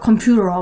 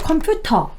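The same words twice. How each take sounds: First: An American accent with a flapped t. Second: A British accent with a crisp t.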